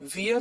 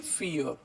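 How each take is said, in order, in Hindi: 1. यह शब्द v ध्वनि से शुरू होता है। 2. यह शब्द f ध्वनि से शुरू होता है। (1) "इसलिए हम इसे वियर नहीं पढ़ेंगे" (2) "वी को हम फ पढ़ते हैं, इसे हम पढ़ेंगे फियर"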